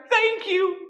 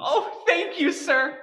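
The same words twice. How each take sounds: First: High, loud burst of gratitude; overjoyed thanks. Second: Said in the usual way. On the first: Acted. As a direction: gush it out with delight. Angel promised his wings.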